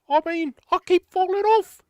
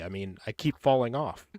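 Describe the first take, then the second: First: It is said in an exaggerated comic character voice. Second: It is said in a plain, everyday voice. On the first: The speaker calls it right. "much better" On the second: The speaker calls it wrong. "you didn't say it with the voice"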